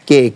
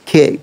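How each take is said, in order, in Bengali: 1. K উচ্চারণ করার সময় বাতাসের কোনো ঝলক বের হয় না। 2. K উচ্চারণ করার সময় বাতাসের একটি জোরালো ঝলক বের হয়। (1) "কে আসবে না" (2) "খেই আসবে"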